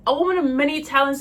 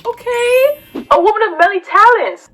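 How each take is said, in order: First: Said in the usual way. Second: High, loud, impressed cheer; big high-pitched hype-up; hyped approval. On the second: Acted. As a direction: gush loudly in a high pitch. Hyped reaction to list of hobbies.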